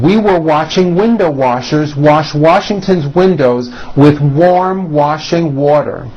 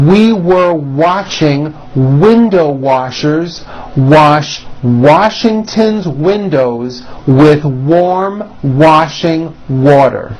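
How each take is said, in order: First: It is said at a quicker, brisker pace. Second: It is said at a slower, careful pace.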